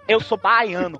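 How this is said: It is said with a strong Bahian accent. The speaker's origin is instantly obvious. "o Torinho vira e fala assim... teu sotaque, velho, te entrega na próxima galáxia"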